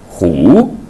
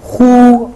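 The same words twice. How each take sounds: First: The pitch rises from mid to high. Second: The pitch stays high and level.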